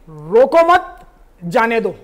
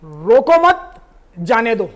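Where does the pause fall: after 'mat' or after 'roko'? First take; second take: after mat; after mat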